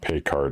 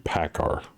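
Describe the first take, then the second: First: The first syllable has a y-glide sound. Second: The first syllable has no y-glide sound. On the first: The speaker calls it wrong. "I'm not pronouncing it right. It's not Paycar" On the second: The speaker calls it right. "It doesn't have a Y in it. It'd be Packar"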